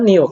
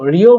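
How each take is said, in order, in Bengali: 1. দ্বিতীয় অক্ষরটি n ধ্বনি দিয়ে শুরু হয়। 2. দ্বিতীয় অক্ষরটি r ধ্বনি দিয়ে শুরু হয়। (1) "কারণ ইয়ং বাচ্চিমের পরে রিউল আসলে রিউলটাকে নিয়ম করতে হয়" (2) "বলবেন না"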